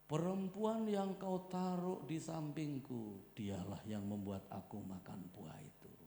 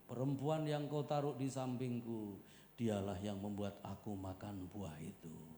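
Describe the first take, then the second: First: It is acted out, accusing the listener. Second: It is said plainly, as narration.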